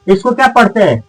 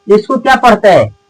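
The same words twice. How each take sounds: The two takes are said the same way.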